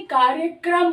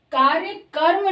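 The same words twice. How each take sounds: First: कार्यक्रम ending in a tight क्रम cluster; correct pronunciation. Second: कार्य कर्म with कर्म said as करम-like; wrong pronunciation. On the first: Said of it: "कार्यक्रम होता है". (कार्यक्रम का सही उच्चारण, क्रम जोड़कर) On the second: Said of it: "कार्य कर्म नहीं". (गलत उच्चारण, कार्य कर्म अलग करके) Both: Shown as a demonstration.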